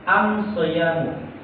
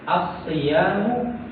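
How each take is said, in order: First: The word begins with 'am', with an m sound. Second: The word begins with 'as', with a doubled s. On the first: Some Arabic dialects use this form instead. "huruf lam diganti dengan huruf mim" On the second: This is the common way of saying it. "mereka nggak bisa menyebut as-siyamu"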